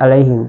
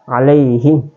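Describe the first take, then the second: First: The middle vowel sound is cut short. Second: The middle vowel sound is held long. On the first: The speaker calls it wrong. "Tidak boleh alaihim" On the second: The speaker calls it right. "dibaca dua, empat atau enam harakat"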